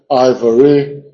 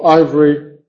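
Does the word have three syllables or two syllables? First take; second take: three; two. First: The word has three syllables, two stressed. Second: The word has two syllables, one stressed. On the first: "se puede pronunciar esta sílaba intermedia" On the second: "dos sílabas con solo uno marcado"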